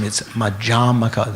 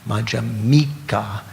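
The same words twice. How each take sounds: First: Madhyamaka, stress on the second syllable, ma-DHYA-ma-ka. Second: Madhyamika, slow, with the stress on the first syllable MA. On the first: Teacher showing students Madhyamaka, stressed on the second syllable. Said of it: "the emphasis on the second syllable". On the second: Teacher contrasting the person's name Madhyamika, stressed on the MA. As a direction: say Madhyamika slowly, hitting the MA. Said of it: "You put the emphasis on the M". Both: Shown as a demonstration.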